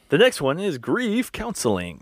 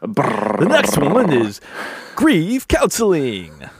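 First: It is said in a plain, flat announcing voice. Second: It is said in a grand, energetic announcing voice. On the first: The speaker calls it wrong. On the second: The speaker calls it right.

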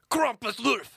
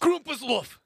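First: It is said angrily in a deeper voice. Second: It is said with mild aggression.

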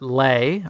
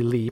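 First: The vowel sounds like the one in 'day'. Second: The vowel sounds like the one in 'see'. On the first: The speaker calls it wrong. "I'm going to pronounce it Lay" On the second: The speaker calls it right. "possibly Lee, probably Lee. ... It's Lee"

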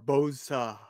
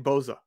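First: The name is said slowly and drawn out. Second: The name is said quickly and briefly. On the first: "I got to draw it out more" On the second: "I say Boza"

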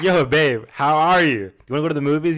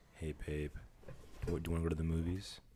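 First: It is said in an excited, lively tone. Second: It is said in a dull, flat tone.

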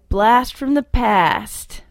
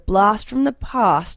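First: It is said in an imitated Canadian accent. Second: It is said in the speaker's own non-Canadian accent.

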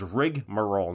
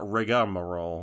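First: The word is said with three syllables. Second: The word is said with four syllables. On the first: The speaker calls it right. "The actual word is rigmarole" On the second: The speaker calls it wrong. "not rigamarole"

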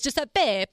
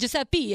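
First: The name is said with an Italian pronunciation. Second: The name is said with an American pronunciation. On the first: The speaker calls it right. "It is Giuseppe. Pe" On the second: The speaker calls it wrong. "Why do Americans always say Giuseppe?"

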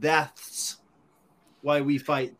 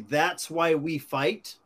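First: The word that's is said with a lisp. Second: The word that's is said with a clear s. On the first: This is the misspelled wording. The speaker calls it wrong. "his tattoo artist must have had a lisp because it said" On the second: This is the intended wording. The speaker calls it right. "it was supposed to say"

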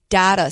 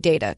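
First: The first vowel sounds like 'dah'. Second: The first vowel sounds like 'day'. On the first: The speaker calls it wrong. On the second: The speaker calls it right.

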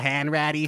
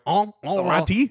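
First: The name is said in a Boston accent. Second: The name is said in a French accent. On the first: "doing Tom a Hanks, Boston accent" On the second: "the French guys are like"

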